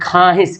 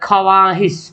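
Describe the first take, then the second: First: No w sound is heard after the kh. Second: A w sound is heard after the kh. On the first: "हम लोग क्या बोलते हैं खाहिश" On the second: "लिखा हुआ क्या ख्वाहिश"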